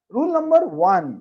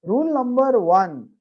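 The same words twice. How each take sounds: First: Teacher calling out the heading; loud announcement. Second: Slow, weighty rule number one with rule stressed; slow emphatic. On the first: Real, not acted. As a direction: rule number one called out high and loud. Teacher announcing the first rule. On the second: Shown as a demonstration. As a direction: lean on rule and draw out rule number one slowly. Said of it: "please ध्यान देना".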